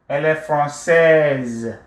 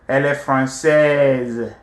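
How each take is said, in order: No difference in how they are said.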